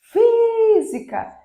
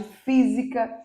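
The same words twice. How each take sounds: First: "física" with FÍ held long, high and loud; stress on first syllable. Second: Said in the usual way. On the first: Shown as a demonstration. Teacher marking the tonic syllable, "física" with a long loud high FÍ. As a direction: sing out a stretched FÍ in "física". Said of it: "Física é a antepenúltima sílaba tônica".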